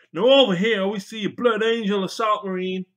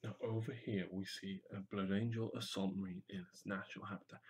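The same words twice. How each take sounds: First: High, loud excited presenter; excited wildlife presenter. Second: Soft, low documentary narrator; nature documentary. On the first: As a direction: shout it like a thrilled zoo host. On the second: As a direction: hush it like Attenborough. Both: Shown as a demonstration. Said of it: "You could do a bit about Irwin and Attenborough".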